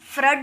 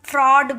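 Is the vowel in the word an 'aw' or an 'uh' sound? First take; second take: uh; aw. First: The vowel is a short 'uh' sound. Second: The vowel is an open 'aw' sound. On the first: The speaker calls it wrong. "फ्रड नहीं बोलेंगे" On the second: The speaker calls it right. "इसे हम फ्रॉड बोलेंगे"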